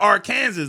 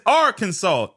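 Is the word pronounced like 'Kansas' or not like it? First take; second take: like Kansas; not like Kansas. First: The word is pronounced like Kansas. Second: The word is not pronounced like Kansas. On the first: The speaker calls it wrong. "like the word Kansas, nah" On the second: The speaker calls it right. "When you're talking about the state, it's Arkansas"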